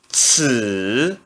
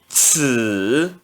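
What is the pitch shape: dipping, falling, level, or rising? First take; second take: dipping; dipping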